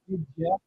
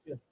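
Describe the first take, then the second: First: The 'you' is reduced to a weak 'ya'. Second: The D and Y blend into a J sound. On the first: The speaker calls it wrong. "we don't say" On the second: The speaker calls it right. "we say just"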